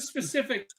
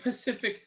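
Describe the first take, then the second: First: The word begins with an s sound. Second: The word begins with a p sound. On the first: The speaker calls it right. "instead of specific" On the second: The speaker calls it wrong. "they go, it was a very Pacific thing. What? No, that's an ocean"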